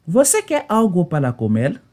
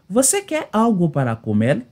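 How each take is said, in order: Both takes have the same delivery.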